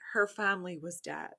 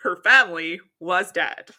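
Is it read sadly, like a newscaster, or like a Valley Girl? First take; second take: sad; newscaster. First: It is read in a sad tone. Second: It is read like a Fox News anchor.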